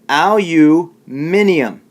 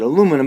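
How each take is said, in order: First: The word is said with five syllables. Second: The word is said with four syllables. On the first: This is the British way of saying it. "in England, they pronounce it aluminium" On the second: This is the American way of saying it. "we pronounce pronounce it aluminum"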